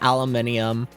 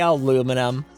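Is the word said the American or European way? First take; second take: European; American. First: It is said with five syllables, European style. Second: It is said with four syllables, American style. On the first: "I'll jest and say aluminium" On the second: "I say aluminum. I'm American"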